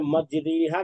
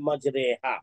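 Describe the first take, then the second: First: The vowel after r is a long ee. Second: The vowel after r is an ay sound. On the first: The speaker calls it wrong. "मजरीहा के बजाय" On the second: The speaker calls it right. "मजहूल पढ़ा"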